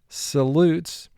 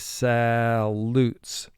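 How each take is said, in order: First: The first vowel is said in a plain way. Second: The first vowel is exaggerated as a short a.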